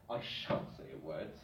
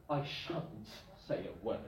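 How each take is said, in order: First: I shan't said low and soft; quiet prim refusal; low soft example line; formal example. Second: I shan't said low and soft; quiet formal refusal; low understated shan't; formal example. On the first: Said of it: "very formal". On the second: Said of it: "with a future meaning". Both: Shown as a demonstration.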